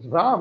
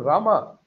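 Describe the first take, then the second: First: The word ends on the consonant m. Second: The word ends with an added a vowel. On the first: This is the original form of the word. The speaker calls it right. "Same thing happened to Ram" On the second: This is the altered form of the word. The speaker calls it wrong. "It became Rama"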